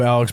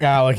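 First: Alex with a final x; mispronounced name. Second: Alec ending in a k sound; corrected name. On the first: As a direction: say Alex instead of Alec. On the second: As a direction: say Alec, not Alex. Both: Real, not acted. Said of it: "I know you meant to say Alec".

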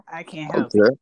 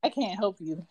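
First: Whispered repeat, breathy aside. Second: Said in the usual way. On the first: Pretend. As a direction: drop to a whisper for the joke.

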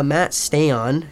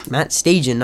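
First: Stajan said as "stay-on"; mispronounced name. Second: Stajan said as "STAY-jun"; corrected pronunciation. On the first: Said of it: "they used to say Matt Stajan instead of". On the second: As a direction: Stajan ending in an unstressed "zhun". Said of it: "instead of Stajan". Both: Real, not acted.

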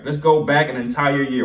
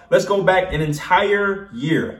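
First: Said in the usual way. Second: Slow, drawn-out announcement; slow dramatic. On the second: Shown as a demonstration. Vlogger teasing viewers with a slow dramatic build-up. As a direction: stretch each word like a trailer voiceover.

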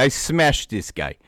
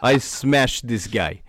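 First: Put-on slow Russian accent, falling on smashed; boasting fighter in a Russian accent. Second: Put-on slow, laughing Russian accent; boasting fighter in a Russian accent. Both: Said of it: "The Russian accent".

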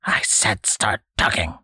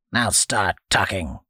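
First: "I said start talking" hissed in an unvoiced whisper, START pushed. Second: Flat, creaky command, NOW falling; creaky old man saying "Now start talking" with a falling NOW; old man's order. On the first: Old man repeats his demand, hissing. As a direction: breathe "I said start talking" as a menacing hiss. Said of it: "the old man hissed". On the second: Acted. Old man orders boy, creaky demand.

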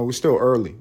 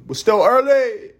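First: Said in the usual way. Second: Very high, loud singsong with last word held; silly high-pitched holler; high mock cry. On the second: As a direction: squeal it playfully and stretch the end. Playful exaggerated repeat of own line.

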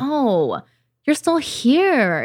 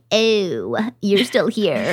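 First: Slow, drawn-out sympathetic greeting, pitched up; accepting, not angry. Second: Understated acted "oh, it's you"; mock recognition. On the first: Retold or imitated. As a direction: coo it slowly to an old visitor. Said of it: "I'm not angry with myself the way I used to be". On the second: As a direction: lightly act out finding an unwelcome guest. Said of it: "dig a little deeper. And I'm like".

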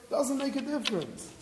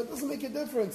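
First: Doesn't pushed higher and hit hard; stress on doesn't. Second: Said in the usual way. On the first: Shown as a demonstration. Rabbi insisting to his listeners, stress on doesn't. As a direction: land hard on Doesn't, higher than the rest. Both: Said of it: "repeated line, emphasis shifts".

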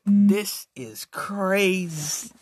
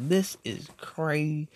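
First: Slow, stretched-out disbelief; reacting to the live, slow stunned drawl; drawn out. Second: Said in the usual way. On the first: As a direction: drag each word in amazement. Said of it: "And I was like". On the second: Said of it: "I was like".

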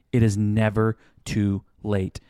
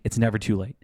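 First: "It is never too late" said slowly, word by word; emphatic restatement. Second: Said in the usual way. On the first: Shown as a demonstration. Reassuring late-planning couples it can still change, slow and emphatic. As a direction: spell out "It is never too late" with deliberate weight.

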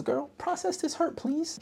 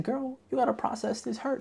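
First: Mock sassy plea. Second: Mock sassy advice. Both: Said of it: "literally what my next note says".

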